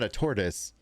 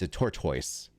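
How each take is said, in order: First: It is said in an American accent. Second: It is said in a British accent. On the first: "it's not" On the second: "if you're British"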